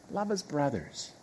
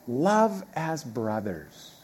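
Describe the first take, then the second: First: "Love as brothers" repeated much softer, turned over in thought; soft musing repeat. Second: "Love as brothers" drawn out slowly, each word weighted; slow emphatic quote. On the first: Preacher echoing the verse to himself, quiet and reflective. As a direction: let it sink in, softly. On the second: Preacher reading the verse to the congregation, slow and weighty. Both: Shown as a demonstration.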